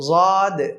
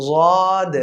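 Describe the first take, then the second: Both takes have the same delivery.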